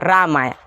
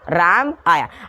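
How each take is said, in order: First: The two words run together without a pause. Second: The two words are said apart with a pause. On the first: The words form one sentence. "वाक्य में प्रयोग हो चुका है" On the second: The words stand as separate words. "अलग से ना बोले राम आया"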